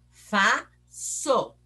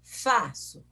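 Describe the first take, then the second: First: FAÇO split in two slow pieces, Fa... ço; syllable by syllable. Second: Said in the usual way. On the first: Shown as a demonstration. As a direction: say FAÇO with a clear pause between its syllables. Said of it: "Leia pausadamente esta palavra". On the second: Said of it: "esta palavra".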